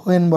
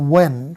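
First: The word starts with an h sound. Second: The word starts with a w sound, no h. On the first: The speaker calls it wrong. "এটাকে হোয়েন বলা যাবে না, হ উচ্চারণ করা যাবে না" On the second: The speaker calls it right. "এটা হচ্ছে ও এর মতো উচ্চারণ হবে যে ওয়েন"

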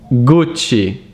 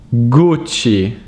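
The two takes are said the same way.

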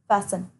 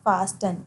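First: The T is silent in the middle. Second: The T is sounded in the middle. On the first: The speaker calls it right. "it's fasten" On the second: The speaker calls it wrong. "It's not fasten"

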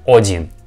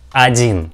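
First: The first vowel is a full, clear O. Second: The first vowel is a reduced, weak sound. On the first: The speaker calls it wrong. "not один" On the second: The speaker calls it right. "we pronounce this figure like один"

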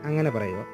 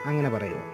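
The two takes are said the same way.

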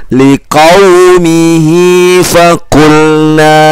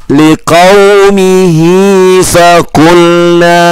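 Both takes have the same delivery.

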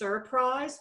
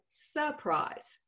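First: The word is said in the standard way. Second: The word is said in a Texas way. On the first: The speaker calls it right. "It's actually pronounced surprise" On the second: The speaker calls it wrong. "in Texas, we say surprise"

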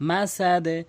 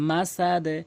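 Both takes have the same delivery.

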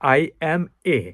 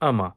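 First: The three words are said separately. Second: The three words are run together as one.

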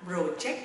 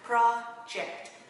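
First: The stress is on the second syllable. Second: The stress is on the first syllable. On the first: The speaker calls it wrong. "Không đọc là project mọi người nha" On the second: The speaker calls it right. "Nếu là nhấn âm 1 ha"

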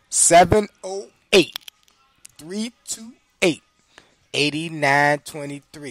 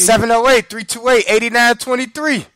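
First: The number is said slowly and deliberately. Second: The number is said at normal, quick speed.

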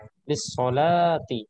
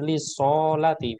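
First: The vowel of the first syllable is long. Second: The vowel of the second syllable is long. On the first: The speaker calls it right. "Lamnya yang panjang" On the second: The speaker calls it wrong. "bukan sonnya yang panjang"

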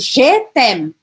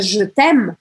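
First: The vowel in 'je' is fully pronounced. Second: The vowel in 'je' is barely pronounced. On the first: The speaker calls it wrong. "que você não pronuncie também, por exemplo, je t'aime, errado" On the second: The speaker calls it right. "eu praticamente não vou pronunciar esse E aqui"

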